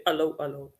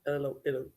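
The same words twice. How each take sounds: First: Hallo with an open ah, hah-loh; Dutch hallo. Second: Hello with an eh vowel, quieter; English hello, eh vowel. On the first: Dutch guest contrasts her hallo with hello, Dutch pronunciation. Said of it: "we say". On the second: Dutch guest contrasts English hello with her hallo. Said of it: "instead of". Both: Shown as a demonstration.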